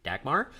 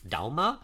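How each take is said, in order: First: A hard g is heard in the middle. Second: No hard g is heard in the middle. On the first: This is the usual English pronunciation. "English-speaking people, they pronounce it Dagmar" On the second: This is the native Danish pronunciation. "in Danish, that would actually be pronounced Dalma"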